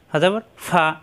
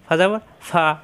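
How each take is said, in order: Both takes have the same delivery.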